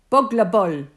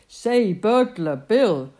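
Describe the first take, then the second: First: "Bugler Bull" said as BUG-ler BULL, a short u in both words; baby mispronunciation. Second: Said in the usual way. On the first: A narrator's reading. Baby copying Bill's name badly, "Bugler Bull" with short u sounds. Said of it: "says the baby". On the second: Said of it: "Bugler Bull, says the baby".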